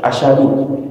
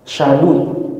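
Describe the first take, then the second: First: It begins with a short a before sh. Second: It begins directly with the sh sound. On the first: The speaker calls it right. "Asyhadu dibaca apa?" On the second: The speaker calls it wrong. "Dia bacanya apa?"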